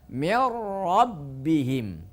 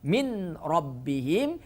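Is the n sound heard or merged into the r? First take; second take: merged; heard. First: The n merges fully into the r. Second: The n is kept before the r. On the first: The speaker calls it right. "nunnya tidak dibaca karena dimasukkan ke huruf ro" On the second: The speaker calls it wrong. "Tidak bisa dipertahankan suara nunnya"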